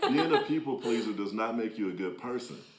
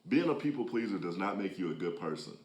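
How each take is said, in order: First: It is said louder, with more force. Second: It is said at a normal speaking volume.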